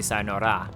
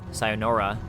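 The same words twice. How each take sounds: First: The r sounds halfway between r and l. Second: The r is a strong English r sound. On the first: The speaker sounds authentically Japanese. The speaker calls it right. "You would say sayonara" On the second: The speaker sounds like a foreigner. The speaker calls it wrong. "that's incredibly foreign sounding"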